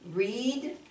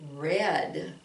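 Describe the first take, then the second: First: The vowel is a long e sound. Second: The vowel is not a long e sound. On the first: It is the base form of the verb. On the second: It is the past form of the verb.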